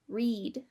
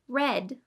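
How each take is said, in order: First: The vowel is a long E sound. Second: The vowel is a short E sound. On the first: The action happens in the present. "the present tense using a long E sound" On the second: The action happened in the past. "the past tense using the short E sound"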